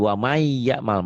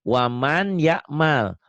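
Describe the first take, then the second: First: The n merges into the following y sound. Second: The n is pronounced clearly before the y.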